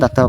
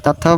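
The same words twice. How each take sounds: First: দাত্তাও with an unaspirated d at the start; d pronunciation. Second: থাত্তাও with an aspirated th at the start; th pronunciation. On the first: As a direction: begin দাত্তাও on d, not th. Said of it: "দাত্তাও বলা যায়". (দাত্তাও-এর শুরুতে দ উচ্চারণ) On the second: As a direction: begin থাত্তাও on th, not d. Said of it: "থাত্তাও বলা যায়". (থাত্তাও-এর শুরুতে থ উচ্চারণ) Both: Shown as a demonstration.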